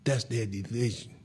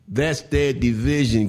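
First: Said in the usual way. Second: Louder and slower, leaning hard on "their"; emphatic repeat. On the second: Shown as a demonstration. Host repeating to listeners, loud and emphatic. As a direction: hammer it home, slowly and loud.

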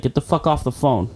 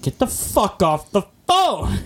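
First: Said in the usual way. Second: Slower, higher mock yell on "Get the fuck off the phone!"; retold yell. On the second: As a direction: drag it out like a cop losing patience. Herhaalt na tonen van badge.

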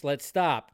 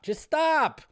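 First: Said in the usual way. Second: Much higher, pleading whine on "Just stop"; exasperated plea. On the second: Real, not acted. Host begging critics to drop the Barbie credit talk, exasperated high whine. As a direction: beg them to quit, fed up.

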